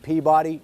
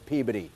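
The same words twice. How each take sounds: First: It is said the way outsiders say it. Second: It is said the way locals say it. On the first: The speaker calls it wrong. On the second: The speaker calls it right. "it's Peabody. Do not say Peabody"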